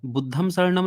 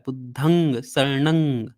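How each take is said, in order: First: Each word ends with an m sound. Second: Each word ends with an ng sound. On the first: The speaker calls it wrong. "बुद्धम शरणम नहीं होता है" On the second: The speaker calls it right. "ये होता है"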